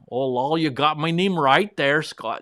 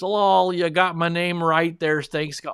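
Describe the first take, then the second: First: It is said in an attempted Wisconsin accent. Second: It is said in his normal accent.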